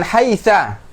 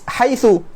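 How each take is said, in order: First: The word ends in an a vowel. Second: The word ends in a u vowel. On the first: Other Arabs always say it this way. "dengan akhiran fathah" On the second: Some Arabs always say it this way. "dengan harokat dhammah"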